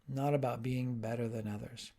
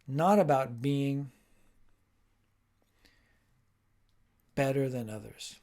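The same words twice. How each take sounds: First: It is spoken at an ordinary pace. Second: It is spoken slowly and carefully. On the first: "Then I might repeat it at normal speed" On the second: "first time nice and slow"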